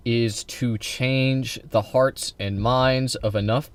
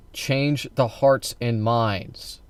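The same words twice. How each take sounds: First: Is to change the hearts and minds, said slowly and deliberately; slow emphasis. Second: Change the hearts and minds, each word drawn out slowly; slow emphasis. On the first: Laying out the leftist plan to viewers, slow and deliberate. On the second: Repeating his key phrase to the chat, slow and deliberate. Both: Shown as a demonstration. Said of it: "notice what I said there".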